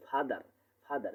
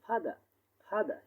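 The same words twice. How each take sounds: First: Said in the usual way. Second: ফাদার with the last r barely sounded, "fada"; soft final R. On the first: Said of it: "আমরা পড়ে আসছি". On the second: Shown as a demonstration. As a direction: say ফাদার higher, ending on an open a. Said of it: "আমরা উচ্চারণ করবো কি?".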